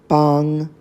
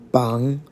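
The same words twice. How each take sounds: First: The pitch stays high and level. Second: The pitch dips low and then rises. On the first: It means approaching. "first tone" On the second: It means a posted list of names. "Third tone"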